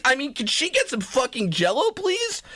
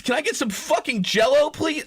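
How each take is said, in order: First: Said in the usual way. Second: Shouted demand. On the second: Retold or imitated. Repeats the Jell-O demand, corrected.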